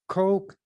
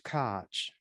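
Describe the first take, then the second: First: The name sounds like the word coke. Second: The name ends with a ch sound. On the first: "Some people pronounce it"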